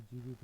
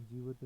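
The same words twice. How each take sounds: First: जीवित with a clear i, jeevit; जीवित said as jeevit, the correct form. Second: जीवत without the i, jeevat; जीवत said as jeevat, the incorrect form; wrong form. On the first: Teacher giving the correct spelling, जीवित as jeevit. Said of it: "होता है". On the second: Teacher contrasting the wrong spelling, जीवत as jeevat. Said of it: "नहीं". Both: Shown as a demonstration.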